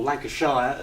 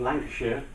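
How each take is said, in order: First: "Lancashire" ending like "shire", rhyming with fire; "Lancashire" as Lanca-SHY-er, teasingly; Dennis's pronunciation. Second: Said in the usual way. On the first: Retold or imitated. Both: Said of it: "as Dennis would say".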